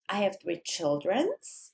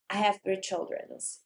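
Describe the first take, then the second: First: The voice rises at the end. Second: The voice falls at the end.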